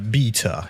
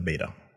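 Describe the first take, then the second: First: Beta is said with a British accent. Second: Beta is said with an American accent. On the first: "for those who don't speak, you know, Matt" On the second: "he means the beta"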